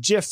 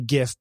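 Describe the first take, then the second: First: The word starts with a soft j sound. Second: The word starts with a hard g sound. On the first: "it's GIF like the peanut butter" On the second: "I used to say GIF"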